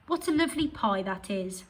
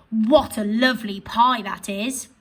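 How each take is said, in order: First: Said in the usual way. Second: Louder, rising on pie; exclaiming. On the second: Shown as a demonstration. Teacher reading the exclamation version to pupils. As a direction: admire the pie out loud. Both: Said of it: "express those sentences in a different way".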